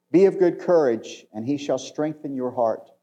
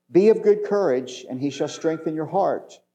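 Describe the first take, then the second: No difference in how they are said.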